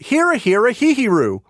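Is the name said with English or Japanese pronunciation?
English. The name is said with English pronunciation. "in English you would just call it"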